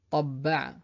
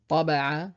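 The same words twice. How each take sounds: First: Tabba'a avec le bb appuyé; tabba'a, doubler le b; doubled b. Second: Taba'a avec un b simple; Taba'a sans shadda, b bref; single b. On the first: (tabba'a avec shadda, b double) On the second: (Taba'a, b court) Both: Shown as a demonstration. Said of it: "la même chose avec d'autres mots".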